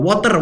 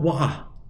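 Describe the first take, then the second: First: It is spoken in an Indonesian accent. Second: It is spoken in a British accent. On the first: "kita Indonesia suka banget pakai uh, water" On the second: "Orang U K mungkin bilang wah gitu"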